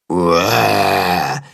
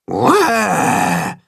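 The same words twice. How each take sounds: First: Low, drawn-out roar; copied monster roar. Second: Higher little-animal roar; demonstrated roar. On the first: Willi repeats Tacho's roar to practise, low roaring. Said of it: "wiederholt Willi". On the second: Tacho shows Willi how to roar, demonstrating. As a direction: give a small mock roar, drawn out. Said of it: "macht Tacho ihm vor". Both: A narrator's reading.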